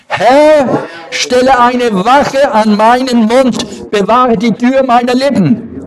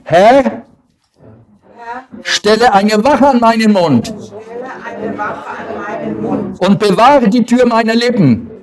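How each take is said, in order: First: It is said loudly. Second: It is said at normal volume.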